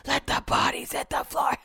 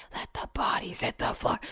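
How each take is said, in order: First: "Let the bodies hit the floor" voiced and higher, half-sung; half-sung lyric. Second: "Let the bodies hit the floor" whispered, voiceless and much softer. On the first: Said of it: "popped in my head". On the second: Retold or imitated. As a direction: breathe the lyric under your breath. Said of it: "'cause I whispered".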